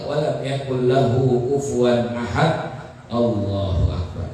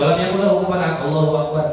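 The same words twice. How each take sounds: First: A short pause comes before Allahu akbar. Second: Allahu akbar follows immediately without a pause.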